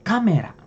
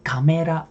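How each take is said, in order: First: The pitch falls after the first syllable. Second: The pitch rises after the first syllable. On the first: The speaker calls it right. "Tapi kalau garisnya yang di huruf yang depan sini, berarti dia turun" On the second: The speaker calls it wrong. "Bukan kamera, bukan"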